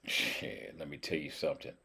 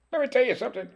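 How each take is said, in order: First: Soft, low-pitched confiding line; low, quiet aside. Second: Squeaky, very high playful repeat; silly high voice. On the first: Real, not acted. Cook confiding in viewers about the duck, low aside. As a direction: drop low and keep it quiet. Says it low, then squeaky. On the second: Pretend. Cook playfully bragging to viewers, silly squeaky voice. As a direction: jump way up into a squeak.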